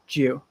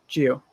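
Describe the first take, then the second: First: The two words blend into one short syllable. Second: The two words blend into one short syllable.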